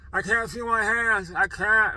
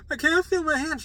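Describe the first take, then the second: First: "I can't feel my hands" high, loud and dragged out, words slurred; slurring. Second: High, loud panicked cry; freaking out. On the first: Panicked patient to the nurse, "I can't feel my hands" slurred. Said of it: "And I was slurring". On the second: Patient to nurse as numbness hits, freaking out. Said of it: "I was freaking out". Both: Retold or imitated.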